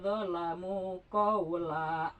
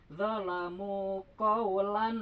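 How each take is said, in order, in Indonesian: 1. Bunyi n dihilangkan, berakhir pada vokal panjang. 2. Huruf n terakhir pada kata terakhir jelas dilafalkan. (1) "kalau diwakop misalnya begini" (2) "dibaca kaulan karena ada tanwin menghadapi gin ya, disebutnya idhar"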